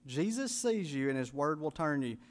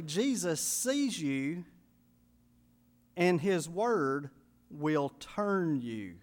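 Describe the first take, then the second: First: Said in the usual way. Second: Slow emphasis. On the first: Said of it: "thirdly, Jesus sees you". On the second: Shown as a demonstration.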